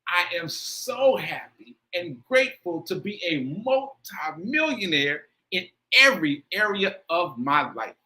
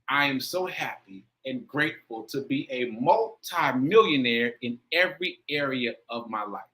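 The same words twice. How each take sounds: First: It is said with intense feeling. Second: It is said with moderate feeling.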